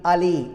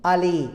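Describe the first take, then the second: First: The L is short and single. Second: The L is short and single.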